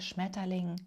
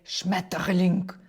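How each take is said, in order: First: The word sounds soft, with no r inside. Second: The word sounds harsh, with a strong r. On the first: The speaker calls it right. "якщо його правильно вимовляти ... Без «р» всередині" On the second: The speaker calls it wrong. "тобто дуже грубо"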